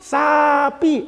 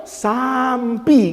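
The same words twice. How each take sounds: First: High, drawn-out "sapi" without an M; teacher's model pronunciation. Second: Very slow "sampi" with an M before P; "saam-pi", M slipped in; pupil's mispronunciation. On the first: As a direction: dictate "sapi" as sa-pi. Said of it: "kata gurunya". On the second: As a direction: repeat it wrongly as "sampi", stretched out. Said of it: "nyebut sapi itu sampi". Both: Retold or imitated.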